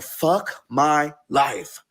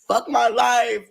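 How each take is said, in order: First: Drawn-out despair. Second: "Fuck my life" higher and louder, exasperated; exasperated cry. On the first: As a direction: stretch "Fuck my life" out, defeated. Despair at the breakup. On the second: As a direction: throw "Fuck my life" up, fed up. Repeated louder. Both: Retold or imitated.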